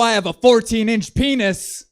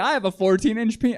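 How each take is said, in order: First: It is said in an angry tone. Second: It is said in a happy tone. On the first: "which is the angriest tone I think that I've heard" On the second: "you think he'd be happier about it"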